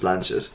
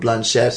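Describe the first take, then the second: First: The name is said the original way. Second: The name is said the American way. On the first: This is how she says her own name. The speaker calls it right. "but she's Blanchett" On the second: This is how people in America say it. The speaker calls it wrong. "in America they started calling her Blanchett"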